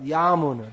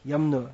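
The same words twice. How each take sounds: First: A vowel in the word is held long. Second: A vowel in the word is cut short. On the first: It is the Sanskrit form meaning 'of the Yamuna'. "it's pronounced Yamuna because it's the Sanskrit grammar is like that" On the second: It is the everyday Hindi form of the river's name. "in the Hindi script they say the Yamuna, they leave out that, yeah, they make it very short"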